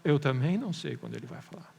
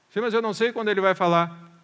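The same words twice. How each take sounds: First: Lower, unbothered reply; calm answer to a protest; matter-of-fact admission. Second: Louder, higher objecting listener; raised-voice mock protest; protesting objection. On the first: Shown as a demonstration. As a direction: admit it simply, voice dropping. Preacher's own answer to the objection. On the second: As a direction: object loudly, like an impatient churchgoer.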